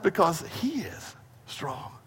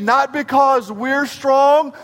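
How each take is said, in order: First: Soft drop on "he is strong"; reverent, much softer answer; hushed resolution. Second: STRONG stretched out high; slow, raised push onto STRONG; preacher building to the contrast; emphatic negation. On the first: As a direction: let "strong" fall away quietly after a pause. Preacher resolving the contrast softly. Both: Real, not acted.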